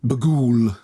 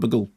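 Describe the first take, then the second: First: It is said in a put-on, theatrical voice. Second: It is said in a plain, normal voice. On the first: The demon sounds properly sinister. "you have to say it in that voice" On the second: The demon sounds ordinary and unscary. "otherwise it's just called the demon Bughuul"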